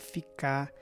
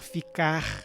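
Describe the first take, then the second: First: The final R sound is dropped. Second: The final R sound is pronounced. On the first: "tirar o R do final de verbos do infinitivo" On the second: "Em vez de falar ficar"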